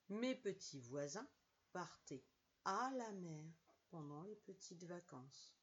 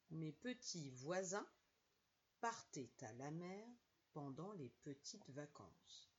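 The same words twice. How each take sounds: First: No t sound links partaient to à. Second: A t sound links partaient to à. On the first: The speaker calls it wrong. "sans faire la liaison" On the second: The speaker calls it right. "Attention à la liaison. Écoutez bien"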